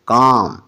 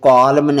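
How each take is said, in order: First: The L sound is silent. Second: The L sound is pronounced. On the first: The speaker calls it right. "C A एल M काम" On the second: The speaker calls it wrong. "इसको कॉलम नहीं पढ़ना"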